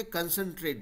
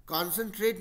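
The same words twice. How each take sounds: First: कंसंट्रेट starting on a short 'kun'; कंसंट्रेट with schwa. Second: कॉन्सेंट्रेट starting on a full 'kawn'; कॉन्सेंट्रेट with open o. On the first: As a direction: reduce the first vowel of कंसंट्रेट to 'uh'. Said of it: "कंसंट्रेट बोलता है". (कंसंट्रेट, पहले छोटा 'कन' बोलते हुए) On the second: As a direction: say कॉन्सेंट्रेट as spelled, 'kon' first. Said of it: "नहीं बोल के". (कॉन्सेंट्रेट, पहले 'कॉन' बोलते हुए) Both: Shown as a demonstration.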